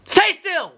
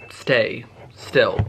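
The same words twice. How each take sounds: First: High-pitched sharp order; exasperated command. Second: Said in the usual way. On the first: Real, not acted. Vlogger ordering something to stay still, exasperated command. Repeats the order after it fails.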